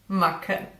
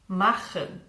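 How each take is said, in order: First: The middle consonant is a K. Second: The middle consonant is a raspy sound. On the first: The speaker calls it wrong. "simply pronounce it as K" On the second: The speaker calls it right. "a very hard sound produced in the back of your mouth"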